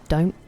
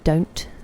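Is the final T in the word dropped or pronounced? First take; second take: dropped; pronounced. First: The final T sound is dropped. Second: The final T sound is clearly pronounced. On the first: This is the speaker's own lazy way of saying it. "where I said don't. Because I'm lazy" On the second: This is how posh speakers say it. "They don't drop their T's. So they would say don't"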